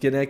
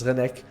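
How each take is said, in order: First: The name begins with a hard G sound. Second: The name begins with a breathy H sound. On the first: The speaker calls it wrong. "not Genek" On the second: The speaker calls it right. "it's Renek with an H sound"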